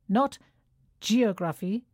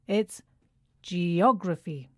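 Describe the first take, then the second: First: The stress is not on the second syllable. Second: The stress is on the second syllable. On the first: The speaker calls it wrong. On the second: The speaker calls it right.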